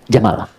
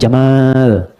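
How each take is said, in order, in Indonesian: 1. Vokal kedua dibaca pendek. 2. Vokal kedua dibaca panjang. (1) "pendek bacanya" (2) "Bukan Jamal"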